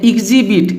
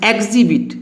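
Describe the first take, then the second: First: एग्जिबिट starting with short i, "ig-zi-bit"; wrong pronunciation. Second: एग्जिबिट starting with e, "eg-zi-bit"; correct pronunciation. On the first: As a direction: open एग्जिबिट on an "ik" sound. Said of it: "नहीं पढ़ना है". (एग्जिबिट को गलत "इग्ज़िबिट" बोलें) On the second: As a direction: open एग्जिबिट on e, not i. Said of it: "ई का उच्चारण ए आ रहा है". (एग्जिबिट, शुरू में "ए" की आवाज़) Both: Shown as a demonstration.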